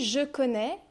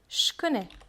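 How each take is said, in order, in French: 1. La voyelle de « je » est bien prononcée. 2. La voyelle tombe et le j se prononce comme ch.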